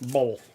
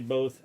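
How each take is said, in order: First: The word has an L sound before the th. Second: The word has no L sound before the th. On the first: "I say both with an L" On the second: "I don't say both"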